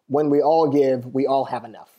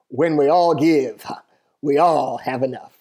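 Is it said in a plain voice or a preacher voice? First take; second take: plain; preacher voice. First: It is said in a plain speaking voice. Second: It is said in a preacher voice.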